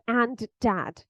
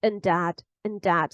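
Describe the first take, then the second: First: "and" fully pronounced before dad; strong form. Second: "and" shrunk to "un" before dad; low, reduced "un dad"; weak form. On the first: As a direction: say a full, stressed AND, then dad. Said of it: "So it's not". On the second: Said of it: "got transformed into". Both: Shown as a demonstration.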